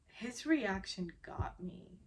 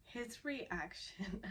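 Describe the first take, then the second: First: Said in the usual way. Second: Quiet, slow, choked-up words; fighting real tears as the words come out; holding back tears. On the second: Real, not acted. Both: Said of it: "I'm gonna try very hard not to tear up".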